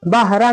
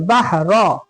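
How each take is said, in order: First: बहरा with a light, thin "ra" ending; wrong thin ra. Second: बहरा drawn out with a thick "ro"; very heavy ra. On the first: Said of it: "बहरा नहीं पढ़ेंगे". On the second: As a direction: make the रा of बहरा fully heavy. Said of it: "एकदम मोटा". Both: Shown as a demonstration.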